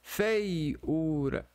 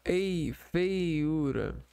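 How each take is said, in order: First: Said in the usual way. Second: "Ei, feiura" drawn out with ei apart; very slow syllables. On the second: Shown as a demonstration. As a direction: stretch out Ei then feiura, slowly. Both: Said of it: "Tá vendo?".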